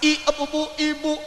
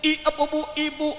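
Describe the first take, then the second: First: Each syllable is articulated clearly and distinctly. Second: Each syllable is articulated clearly and distinctly.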